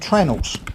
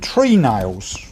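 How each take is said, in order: First: The word is run together and shortened. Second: Both parts are said fully and clearly. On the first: "we don't pronounce that properly, we call them trennels" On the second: "the shipbuilders call them tree nails when they're made out of wood"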